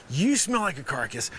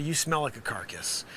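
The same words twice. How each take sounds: First: "You" stressed to single out the listener. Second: Said in the usual way. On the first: Real, not acted. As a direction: lean on "You", then fall away. Redirects insult by stressing you.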